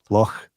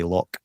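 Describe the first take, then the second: First: It ends with a rough sound in the throat. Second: It ends with a hard k sound. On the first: The speaker calls it right. "get you know the phlegm in the back of your throat. So it's like Loch" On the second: The speaker calls it wrong. "everyone sees L O C H and they say Loch"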